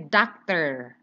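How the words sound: The final r is clearly pronounced. "Tapi kalau orang uh, American, they will say doctor"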